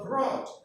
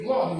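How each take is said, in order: First: An R sound follows the B. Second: An L sound follows the B.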